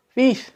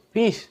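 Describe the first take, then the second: First: Much higher, louder call of the name; the voice calls him again, stronger; louder eerie call. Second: Higher, drawn-out call of a name; a mystery voice calling his name; eerie name call. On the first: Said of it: "panggil lagi". (panggilan nama yang lebih keras dan menyeramkan) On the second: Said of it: "Dia dengar ada orang sebut". (panggilan nama yang menyeramkan) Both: Retold or imitated.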